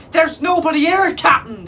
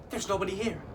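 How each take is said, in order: First: High, loud terrified cry. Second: Said in the usual way. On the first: A narrator's reading. Pirates crying to their captain, terrified shout. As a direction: panic toward the captain. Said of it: "they quivered, terrified".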